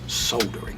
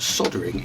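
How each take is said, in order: First: The word is said with an L sound. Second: The word is said without an L sound. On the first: This is the British pronunciation. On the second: This is the American pronunciation.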